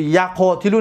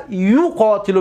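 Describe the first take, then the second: First: یقاتلو begun with ya, as yaqotilu; یقاتلو mispronounced as yaqotilu; wrong first vowel ya. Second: یقاتلو begun with yu, as yuqotilu; یقاتلو as yuqotilu, long second vowel; first syllable yu. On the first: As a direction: say یقاتلو with a after the y. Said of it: "نمیگوی". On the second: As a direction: say یقاتلو slowly with u after the y. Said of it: "میگوی". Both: Shown as a demonstration.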